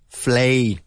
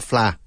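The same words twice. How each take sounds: First: FLAY with a long "ay" vowel; teacher's model syllable FLAY, rhyming with day; correct vowel. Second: FLA with an open "ah", no glide; learner's error FLA, missing its "ay"; wrong vowel. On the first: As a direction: say FLAY clearly, as in "play". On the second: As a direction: show the mistaken FLA, cut to an "ah". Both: Shown as a demonstration. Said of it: "not fla".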